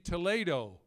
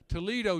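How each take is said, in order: First: It uses the usual expected pronunciation. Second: It uses the local Ohio pronunciation. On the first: The speaker calls it right. "should be" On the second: The speaker calls it wrong. "the cities in Ohio are not pronounced the way they should be"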